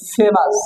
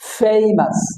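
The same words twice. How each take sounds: First: The first vowel is a plain, short 'e' sound. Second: The first vowel glides from 'e' to 'i'. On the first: The speaker calls it wrong. "এটা ভুল উচ্চারণ হবে" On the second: The speaker calls it right. "কারণ এ উচ্চারণ এখানে সাধারণত এই এই"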